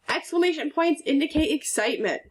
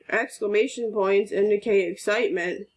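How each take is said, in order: First: It is read in a lively, excited tone. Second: It is read in a flat, bored tone. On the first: The speaker calls it right. "your voice should change a little bit to show some excitement" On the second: The speaker calls it wrong. "You wouldn't read this as ... That's not very exciting"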